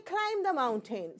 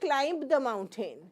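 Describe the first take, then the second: First: Climb ends on m with no b. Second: The b in climb is sounded. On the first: The speaker calls it right. "we say" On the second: The speaker calls it wrong. "We do not say"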